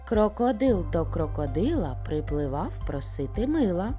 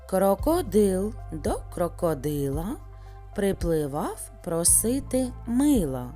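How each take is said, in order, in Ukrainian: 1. Сказано найшвидшим темпом. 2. Сказано трішки швидше. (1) "а зараз ще швидше" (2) "трішки швидше"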